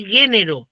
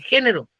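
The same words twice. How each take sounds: First: "género" con g suave, como en "gato"; mala pronunciación. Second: "género" con jota, áspera como en "jamón"; pronunciación correcta. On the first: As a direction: dice "género" con una g sonora, no con jota. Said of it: "Si se dice género, no se dice género". (la g de "género" pronunciada sonora, a modo de error) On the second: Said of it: "se dice género". (la g de "género" suena como jota, la forma correcta) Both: Shown as a demonstration.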